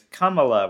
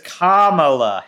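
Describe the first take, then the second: First: The first syllable has a reduced schwa vowel. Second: The first syllable has a full vowel. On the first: This is the authentic form of the name. The speaker calls it right. "with a schwa in the first syllable" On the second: This is the semi-anglicized form of the name. The speaker calls it wrong. "Kamala is not the authentic thing"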